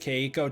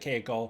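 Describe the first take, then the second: First: The name is said with American-English pronunciation. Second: The name is said with Japanese-style pronunciation. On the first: The speaker calls it wrong. "I might still pronounce it Keiko just because it's kind of like a force of habit" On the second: The speaker calls it right. "I'm gonna do better to pronounce it Keiko"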